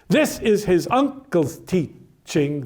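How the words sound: The stress falls on the word this. "he puts the word this in another position of stress"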